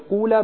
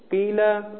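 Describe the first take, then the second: First: The first syllable has a long 'oo' vowel. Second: The first syllable has a long 'ee' vowel. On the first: "به جای اینکه حرف اول مکسور کنن مضموم میکنن، الف تبدیل به واو میشه" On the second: "یعنی مکسور میشه ما قبل آخر، الف هم تبدیل به یا میشه"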